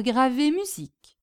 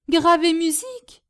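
First: Said in the usual way. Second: High questioning repeat, rising at the end; amazed echo. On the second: Acted. Hostess hearing that her guest engraves music, amazed. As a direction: echo it in happy disbelief.

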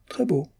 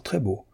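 First: Très beau jumps up high. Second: Softly. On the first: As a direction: lift très beau way up in delight. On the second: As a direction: let très beau fall away gently. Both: A narrator's reading. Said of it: "car vous êtes très beau".

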